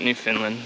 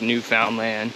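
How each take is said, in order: First: The word is not said the way it's spelled. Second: The word is said the way it's spelled. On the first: The speaker calls it wrong. "it's not Newfoundland" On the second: The speaker calls it right. "It is exactly how it looks"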